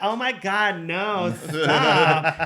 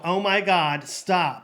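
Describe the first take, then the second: First: It is said playfully, like flirty teasing. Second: It is said sternly, like a serious refusal.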